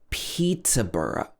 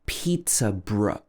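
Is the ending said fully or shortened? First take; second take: full; shortened. First: The ending 'borough' is said with two syllables. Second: The ending is squeezed into one syllable 'bruh'.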